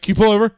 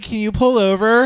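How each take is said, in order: First: It is said in a forceful, urgent way. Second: It is said in a cute, polite way.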